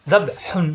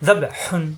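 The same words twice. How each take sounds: The two takes are said the same way.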